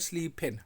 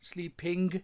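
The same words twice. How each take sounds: First: The final g sound is dropped. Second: The final g sound is clearly pronounced. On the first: "I N जी के आखिर में जो जी है उसको तेज़ी में खा लिया जाता है" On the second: "स्लीपिंग की जगह"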